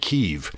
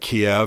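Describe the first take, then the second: First: The name is said the local Ukrainian way. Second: The name is said the anglicized English way. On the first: "That's how they would say it there" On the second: "as we say in English"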